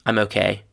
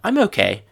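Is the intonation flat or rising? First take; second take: flat; rising. First: The intonation stays flat throughout. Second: The intonation rises toward the end.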